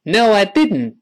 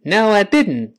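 No difference in how they are said.

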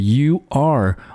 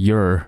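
First: It is said as two full words. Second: It is said as one reduced syllable.

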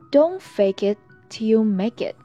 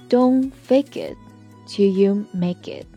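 First: The sentence is said at normal speed. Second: The sentence is said slowly.

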